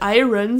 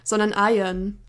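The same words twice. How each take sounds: First: The r comes before the final vowel sound. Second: The r comes after the final vowel sound. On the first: The speaker calls it wrong. "Man spricht das Wort Eisen auf Englisch nicht Iron" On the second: The speaker calls it right. "sondern Iron"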